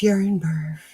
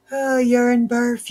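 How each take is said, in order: First: Said in the usual way. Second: High, slow drawn-out groan at the mess; exasperated groan. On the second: Real, not acted. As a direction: stretch out the Oh in dismay. Groaning at tangled yarn.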